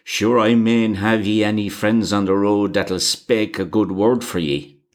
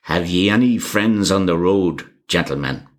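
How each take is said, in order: First: A touch of impatience, spelling it out; impatient. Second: A lightly voiced Irish driver, knowing and hinting; meaning tone. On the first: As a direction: repeat the question, mildly exasperated. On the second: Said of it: "in a meaning tone". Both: A narrator's reading.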